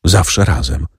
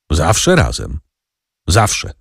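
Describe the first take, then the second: First: Understated, moved echo with falling end; mildly tremulous reply; trembling lips. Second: Measured, pointed echo ending on a rise; understated meaningful questioning. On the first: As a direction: repeat it with a touch of emotion. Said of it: "powtórzyła drżącymi ustami". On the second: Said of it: "wymownie i pytająco". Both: A narrator's reading.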